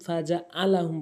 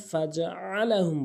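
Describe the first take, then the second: First: "ফাজআলাহুম" with plain glottal hamza; hamza for ain. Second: Slow "ফাজআলাহুম" with pharyngeal ain; ain from throat. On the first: Teacher warning learners, "ফাজআলাহুম" with hamza instead of ain. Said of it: "ফাজআলাহুম বলা যাবে না". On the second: Teacher correcting learners, "ফাজআলাহুম" with true throat ain. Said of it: "ফাজআলাহুম বলতে হবে". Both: Shown as a demonstration.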